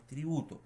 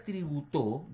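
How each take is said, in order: First: "tributo" as tri-BU-to, falling after the stress; stress on middle syllable. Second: "tributó" with a loud final "TÓ"; stress on last syllable. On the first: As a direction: lean on the "bu" of "tributo". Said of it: "la palabra que se está empleando es tributo". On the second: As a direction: punch the end of "tributó" as tri-bu-TÓ. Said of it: "llevaría tilde en la O". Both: Shown as a demonstration.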